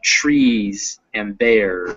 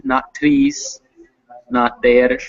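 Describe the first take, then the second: First: "trees" and "there" slow, with a full growly English R; slow model of dog-like R in "trees" and "there"; English R sound. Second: "trees" and "there" said the way to avoid, without the dog-like English R; contrasted R sound. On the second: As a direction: show the wrong R in "trees" and "there". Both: Shown as a demonstration. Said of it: "that kinda dog-like er sound".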